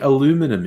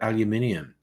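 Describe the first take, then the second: First: The word ends in 'minum' with no extra syllable. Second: The word ends in 'minium' with an extra syllable. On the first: The speaker calls it wrong. "They say minum" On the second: The speaker calls it right. "they don't say minium"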